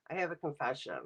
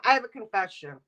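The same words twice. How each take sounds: First: Softer, lower, like a secret; hushed confession. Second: Said in the usual way. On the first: Shown as a demonstration. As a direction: drop the voice for the confession.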